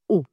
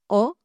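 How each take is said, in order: First: The O vowel is closed, with rounded, tighter lips. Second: The O vowel is open, with the mouth wider. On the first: The speaker calls it right. "Le son O en syllabe ouverte est fermé" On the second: The speaker calls it wrong. "je ne vais pas dire O"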